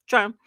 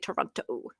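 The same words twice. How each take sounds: First: Some sounds are dropped in a quick reduced form. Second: Every sound in the word is clearly pronounced. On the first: The speaker is a local. "And we're like" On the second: The speaker is not from the city. "They pronounce all the letters"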